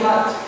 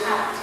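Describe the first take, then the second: First: The h is a light ordinary English sound. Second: The h is a forceful breathy throat sound. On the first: The speaker calls it right. "It is simply hat" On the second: The speaker calls it wrong. "you don't say hat"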